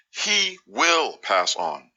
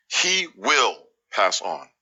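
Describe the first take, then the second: No difference in how they are said.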